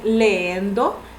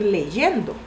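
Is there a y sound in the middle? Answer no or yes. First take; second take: no; yes. First: The middle has no y sound between vowels. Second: The middle has a y sound between vowels. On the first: The speaker calls it wrong. "hay personas que dicen leendo" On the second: The speaker calls it right. "en vez de decir leyendo"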